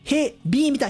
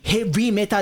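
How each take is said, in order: First: The second syllable starts with a b sound. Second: The second syllable starts with a v sound. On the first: "ヒに点々" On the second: "ウーに点々の方"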